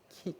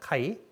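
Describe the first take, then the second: First: The vowel is a plain 'ee' sound. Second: The vowel is the diphthong 'ai'. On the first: This is the Greek pronunciation. "그 발음은 키라고 있는 건데" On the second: This is the English-style pronunciation. "영어식 발음이 더 익숙하실 수학 시간에 보면 카이라는 기호 있죠"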